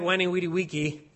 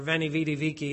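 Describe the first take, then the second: First: Each word begins with a W sound. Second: Each word begins with a V sound.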